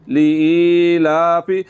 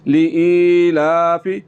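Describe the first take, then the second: The two takes are said the same way.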